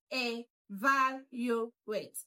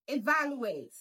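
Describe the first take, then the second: First: "evaluate" slowly, syllable by syllable; broken into syllables. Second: Said in the usual way. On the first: Shown as a demonstration. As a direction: break "evaluate" into e-VAL-u-ate with gaps. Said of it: "let's break it down". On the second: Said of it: "That's the right pronunciation".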